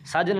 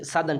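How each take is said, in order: First: साधन said as "saajan", with a j; wrong word sajan. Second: Said in the usual way. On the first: Shown as a demonstration. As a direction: swap the dh of साधन for a j. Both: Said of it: "साधन नहीं".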